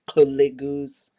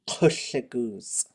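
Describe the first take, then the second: First: The L is made with the voice on. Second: The L is made without voice, breathy. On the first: The speaker calls it wrong. "there is no voiced L. So you're not going to go la, la. There's no kuligus" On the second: The speaker calls it right. "It is a voiceless L"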